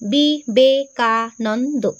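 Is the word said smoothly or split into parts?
split. The word is split with breaks between syllables.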